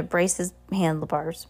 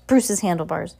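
First: "Bruce's" misread as "braces"; misread name. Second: Said in the usual way. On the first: Real, not acted. Narrator stumbling over the handlebars line, misreading "Bruce's".

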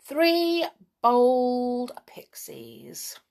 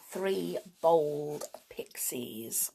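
First: Slow grand "Three Bold Pixies", rising on "Three"; announced title. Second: Slow whispered "Three Bold Pixies"; whispered title. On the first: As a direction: proclaim "Three Bold Pixies" slowly and louder. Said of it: "So here goes". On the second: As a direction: breathe "Three Bold Pixies" slowly, stress on "Bold". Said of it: "the first story is actually called". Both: Shown as a demonstration.

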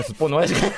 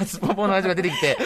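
First: Said in the usual way. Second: Higher, laughing out すっぽんぽん; laughing correction. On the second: Real, not acted. Correcting すっぽん to すっぽんぽん for the hosts, laughing. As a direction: fix the word to すっぽんぽん while giggling.

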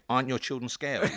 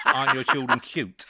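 First: "scary" carries the weight of the question; stressing scary. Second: "cute" carries the weight of the question; stressing cute. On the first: Retelling his mistake to a friend, stressing scary. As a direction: lean on "scary". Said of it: "So I said". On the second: Giving the line he meant to say, stressing cute. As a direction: lean on "cute". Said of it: "Rather than". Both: Shown as a demonstration.

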